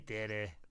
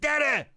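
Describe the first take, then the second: First: It is said flatly with little energy. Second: It is said loudly with lots of energy.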